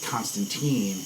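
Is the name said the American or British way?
American. The name is said the American way. "Keanu Reeves is Constantine"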